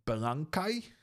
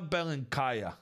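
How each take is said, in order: First: The name ends without a final vowel sound. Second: The name ends with a final vowel sound.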